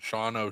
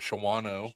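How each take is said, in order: First: The name is said the local way. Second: The name is said as it is spelled. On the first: The speaker calls it right. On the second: The speaker calls it wrong.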